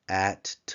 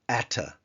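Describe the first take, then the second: First: It ends on the consonant with no vowel. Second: It ends with a very short second syllable. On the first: "a shva that ends a word is silent" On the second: "a little bit like a two syllable, only so that I remember to put in that shva"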